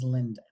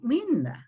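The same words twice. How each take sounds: First: The name is said with plain English sounds. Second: The name is said with Spanish sounds and pitch.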